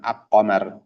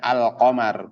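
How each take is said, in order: First: The l sound is replaced by another consonant. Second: The l sound is clearly heard before q. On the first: The speaker calls it wrong. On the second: The speaker calls it right. "Maka bunyinya al-qamar"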